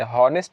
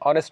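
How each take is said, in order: First: The word starts with an h sound. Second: The word starts with a vowel sound. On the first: The speaker calls it wrong. "हॉनेस्ट गलत है" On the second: The speaker calls it right. "इसको हॉनेस्ट नहीं पढ़ते"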